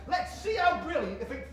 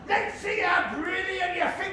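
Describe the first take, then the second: First: It is said in the speaker's normal voice. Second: It is said in a put-on imitating voice. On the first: "and this is a direct quote" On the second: "Do it with the voice"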